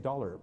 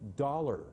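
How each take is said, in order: First: It is said in a plain Canadian accent. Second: It is said in an American accent. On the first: "if I just say dollar" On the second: "the American sound is, I put my tongue up at forty-five degrees"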